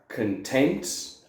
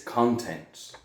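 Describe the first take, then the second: First: "content" stressed on TENT, con-TENT; weak first vowel in "content", land on TENT; second-syllable stress. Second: "content" stressed on CON, CON-tent; full o in "content", hit the first syllable. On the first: Teacher showing homographs to students, "content" stressed on TENT. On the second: Teacher showing homographs to students, "content" stressed on CON. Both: Shown as a demonstration. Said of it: "those are homographs".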